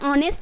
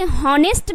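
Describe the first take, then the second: First: The word starts directly with a vowel. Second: The word starts with an audible h. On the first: The speaker calls it right. "एच silent करना है" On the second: The speaker calls it wrong. "आप इसे हॉनेस्ट भी तो बोल सकते हैं ना"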